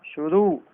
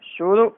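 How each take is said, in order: First: शुरू with a drawn-out "oo"; correct long ending. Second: शुरू with a short final "u"; wrong short ending. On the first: Teacher correcting it, शुरू with long final vowel. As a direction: stretch the end of शुरू. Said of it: "नहीं". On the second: Teacher showing the error, शुरू with short final vowel. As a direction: cut the end of शुरू short. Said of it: "नहीं, शुरू". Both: Shown as a demonstration.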